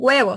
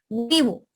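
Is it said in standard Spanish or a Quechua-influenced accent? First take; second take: standard; Quechua-influenced. First: It is said with standard Spanish vowels. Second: It is said with Quechua-influenced Spanish vowels.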